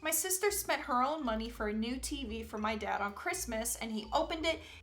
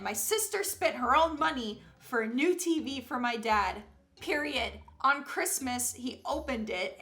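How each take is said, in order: First: It runs on without a break after 'dad'. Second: There is a clear break after 'dad'.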